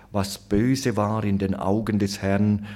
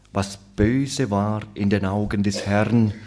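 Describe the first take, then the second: The two takes are said the same way.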